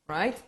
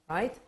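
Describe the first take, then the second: The two takes are said the same way.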